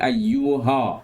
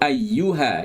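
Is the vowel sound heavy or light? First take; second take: heavy; light. First: The vowels sound too big and heavy. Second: The vowels sound light and not overly full. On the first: The speaker calls it wrong. "Jangan ayyuha. Besar sangat" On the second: The speaker calls it right. "Kita sebut ayyuha"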